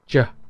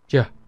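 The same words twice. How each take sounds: First: The consonant is a j-like sound. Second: The same.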